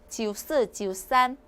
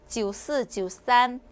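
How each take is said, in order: The two takes are said the same way.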